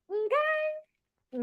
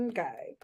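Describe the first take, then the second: First: Very high, drawn-out okay; high questioning okay, softer; sassy okay. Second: Low, soft, falling okay; short low okay that closes the matter; settled okay. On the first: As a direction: pitch it way up and stretch it. Sassy echo after telling someone off. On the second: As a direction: drop it right down, quietly. Low answer to her high okay. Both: Real, not acted.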